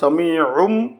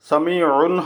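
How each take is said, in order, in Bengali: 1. শব্দটি m ধ্বনি দিয়ে শেষ হয়। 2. শব্দটি n ধ্বনি দিয়ে শেষ হয়। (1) "এখানে হবে সামিউম" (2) "সামিউন হবে না"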